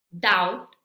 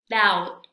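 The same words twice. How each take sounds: First: "doubt" said dowt, no b; louder rising "doubt" with no b; teacher demo of "doubt", b dropped; silent b. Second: "doubt" again dowt, no b; louder falling "doubt" with no b; silent b repeat. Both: Shown as a demonstration. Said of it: "Vamos a repetir".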